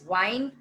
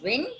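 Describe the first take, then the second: First: It is pronounced as the verb for twisting. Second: It is pronounced as the noun for moving air. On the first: It means to twist or coil something. "here I'm pronouncing it as wind when I mean twist or coil something" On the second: It names moving air. "here I'm pronouncing it as wind when I mean it as moving air"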